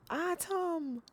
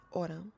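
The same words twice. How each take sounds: First: Imitating a Jamaican mother, high-pitched "Autumn"; mama's Jamaican accent. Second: Said in the usual way. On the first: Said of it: "'Cause she's Caribbean, she's Jamaican". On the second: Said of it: "That's what my mama calls me".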